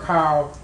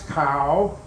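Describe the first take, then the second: First: The pitch stays low across the syllable. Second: The pitch rises across the syllable. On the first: "low tone" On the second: "it becomes a rising tone"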